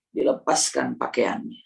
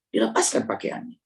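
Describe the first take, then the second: First: Said in the usual way. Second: Lower, whispered repeat. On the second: Shown as a demonstration. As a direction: drop to a hushed whisper. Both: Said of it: "repeated in whisper".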